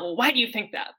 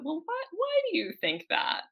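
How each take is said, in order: First: The question sounds challenging and accusing. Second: The question sounds open and genuinely curious. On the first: The listener's view is being challenged. The speaker calls it wrong. "It's not" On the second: The listener's view is genuinely wanted. The speaker calls it right.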